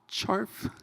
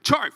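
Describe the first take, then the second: First: The word is said flatly, with little energy. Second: The word is said with lively, enthusiastic energy. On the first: "the least enthusiastic way you can say it" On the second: "you can say it like CHARF, you know, like that"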